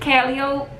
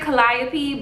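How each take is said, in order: First: The name is said the local New Orleans way. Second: The name is said the non-local way. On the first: This is how locals from the city say it. "being from New Orleans, it's Calliope" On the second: This is how the restaurant's staff say it. "they pronounce it Calliope"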